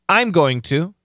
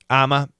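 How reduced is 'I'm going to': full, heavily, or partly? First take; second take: full; heavily. First: Every word is said fully and clearly. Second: The phrase shrinks to one short sound, I'm a. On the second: "It's pretty common nowadays"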